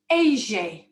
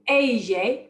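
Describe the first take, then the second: First: It is said in a Buenos Aires accent. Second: It is said in a standard Spanish accent.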